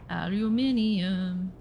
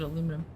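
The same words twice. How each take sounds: First: "Aluminium" with five syllables, al-u-MIN-i-um, slow; jokey British "Aluminium", every syllable spelled out. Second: Said in the usual way. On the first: Shown as a demonstration.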